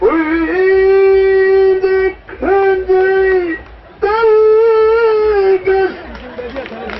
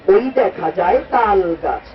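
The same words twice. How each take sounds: First: It is recited in a Quran-reciter's melodic style. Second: It is recited in a small child's manner.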